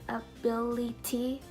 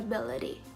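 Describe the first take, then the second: First: The middle t is a clear t sound. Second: The middle t is a quick d-like flap. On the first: The speaker calls it wrong. "we don't pronounce it as C T or ability" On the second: The speaker calls it right. "but we pronounce it as city and ability"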